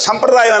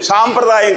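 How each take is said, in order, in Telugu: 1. మొదటి అచ్చు హ్రస్వం. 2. మొదటి అచ్చు దీర్ఘం. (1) "సంప్రదాయం అనాలి దాన్ని" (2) "సాంప్రదాయం కాదు"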